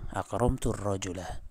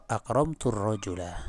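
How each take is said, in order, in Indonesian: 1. Kata-kata itu disambung, hamzanya dihilangkan. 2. Kata-kata itu disambung, hamzanya dihilangkan.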